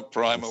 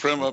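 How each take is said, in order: First: Primer with a long i, PRY-mer; British pronunciation. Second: Primer with a short i, PRIM-er; American pronunciation. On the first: Host shrugging off the difference, primer said as PRY-mer. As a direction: say primer like timer. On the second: Host listing both versions, primer said first as PRIMM-er. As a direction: say primer like trimmer. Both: Shown as a demonstration. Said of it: "primer, whatever it is".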